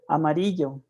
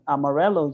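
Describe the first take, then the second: First: The name has a Spanish pronunciation. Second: The name has an American English pronunciation. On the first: This is the original name. "the roots are amarillo" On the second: This is the form accepted in the American community. "amarello is what um, is going to be accepted in the American community"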